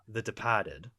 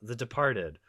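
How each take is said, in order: First: It is said in a Boston accent. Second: It is said in a plain accent.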